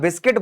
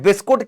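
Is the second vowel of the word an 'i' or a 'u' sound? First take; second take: i; u. First: The second vowel is an 'i' sound. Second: The second vowel is a 'u' sound. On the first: This is the standard, proper form. "बिस्किट बोलना correct तरीका है" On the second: This is the everyday, emotional form. "But बिस्कुट क्या है, emotion है"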